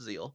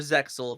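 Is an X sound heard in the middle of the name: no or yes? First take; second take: no; yes. First: The X in the middle is not pronounced. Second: The X in the middle is pronounced. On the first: The speaker calls it right. "I've been corrected violently that it's Zeal" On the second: The speaker calls it wrong. "if you guys want to pronounce the X"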